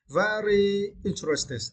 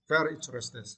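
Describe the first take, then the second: First: "very" drawn out and high before "interested"; emphatic. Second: Said in the usual way. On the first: Shown as a demonstration. Teacher explaining a word's meaning to learners, emphatic drawn-out "very interested". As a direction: stretch "very interested" slowly, pitched up.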